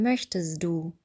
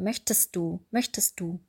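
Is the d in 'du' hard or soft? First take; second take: soft; hard. First: The d in du is soft and fully voiced. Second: The d in du is hard, between t and d. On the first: The speaker calls it wrong. "würden wir nicht sagen" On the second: The speaker calls it right.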